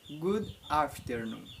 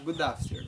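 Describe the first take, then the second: First: The two words are said separately and slowly. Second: The final d links into the next vowel, faster. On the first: "Eu vou repetir de novo" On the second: "os americanos eles falam mais rápido, vai falar good afternoon, tá? Vai unir ali a, a consoante com a vogal"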